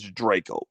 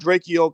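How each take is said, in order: First: The first syllable does not sound like 'Drake'. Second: The first syllable sounds like the word 'Drake'. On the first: The speaker calls it right. "but it's Draco" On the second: The speaker calls it wrong. "I said Drakeo because it's spelled like Drake with an E"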